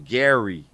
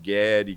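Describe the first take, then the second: First: The name is said with a Californian American accent. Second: The name is said with a Brazilian Portuguese accent. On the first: It sounded like someone from the speaker's homeland. "com aquele sotaque, né? Da minha terra de origem, né? A Califórnia" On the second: Locals struggled to pronounce the name. "todo mundo falava com algum tipo de sotaque"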